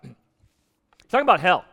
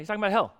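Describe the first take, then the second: First: It is said at a louder volume. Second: It is said at a quieter volume.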